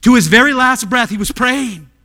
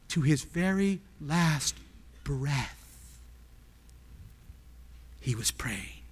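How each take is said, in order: First: Loud, raised preaching cry; high, loud pulpit emphasis; forceful proclamation. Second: Slow, low and very soft; quiet, weighty, broken into slow phrases; hushed solemnity. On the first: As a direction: drive it home in one unbroken burst. Forceful repeat of the hushed statement. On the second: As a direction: let it fall away with long pauses. Hushed first take, then forceful repeat. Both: Real, not acted.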